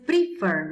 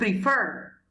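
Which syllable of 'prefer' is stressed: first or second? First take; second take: first; second. First: The stress is on the first syllable. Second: The stress is on the second syllable. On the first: The speaker calls it wrong. "Acá no es prefer" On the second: The speaker calls it right. "se pronuncia prefer ... con mayor fuerza en fer"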